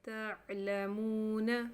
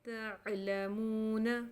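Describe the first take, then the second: Both takes have the same delivery.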